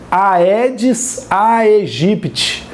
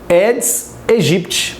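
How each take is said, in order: First: Each 'ae' is said as two vowels, 'a-e'. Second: Each 'ae' is said as a single 'eh'. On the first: The speaker calls it wrong. "Ele se escreve Aedes aegypti" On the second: The speaker calls it right. "a pronúncia correta é Aedes aegypti"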